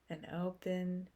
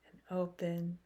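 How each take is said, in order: Both takes have the same delivery.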